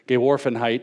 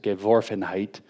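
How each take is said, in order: First: The word is pronounced with English-like sounds. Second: The word is pronounced with German sounds. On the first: The speaker calls it wrong. "I guess I said that wrong" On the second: The speaker calls it right. "it's Geworfenheit"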